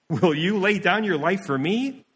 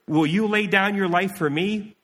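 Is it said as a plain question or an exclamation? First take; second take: exclamation; question. First: It is said as an incredulous exclamation. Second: It is said as a plain question.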